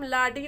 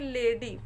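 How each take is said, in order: First: The first vowel is a long 'ah'. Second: The first vowel is an 'ay' sound. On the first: The speaker calls it wrong. "इसको हम लाडी नहीं पढ़ेंगे" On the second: The speaker calls it right. "ए का मतलब ए हो गया यहाँ पे लेडी"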